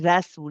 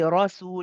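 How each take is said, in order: First: The r sound is light and thin. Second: The r sound is heavy and full-mouthed. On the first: The speaker calls it wrong. "We don't say rasul. Rasul would be wrong" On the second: The speaker calls it right. "Ra has a fatha, we say rasul"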